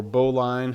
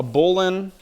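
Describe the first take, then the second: First: "bowline" said as BOH-line, rhyming with "line"; BOH-line pronunciation. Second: "bowline" said as BOH-lin, short unstressed ending; BOH-lin pronunciation. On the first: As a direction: say "bowline" with a full long i in the second syllable. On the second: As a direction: say "bowline" with a reduced second syllable, BOH-lin. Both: Shown as a demonstration. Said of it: "however you wanna pronounce it".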